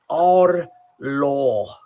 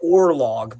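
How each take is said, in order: First: The final g is soft, almost silent. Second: The final g is pronounced hard. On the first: The speaker calls it right. "because the G is probably very, very soft" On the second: The speaker calls it wrong. "we say like or log"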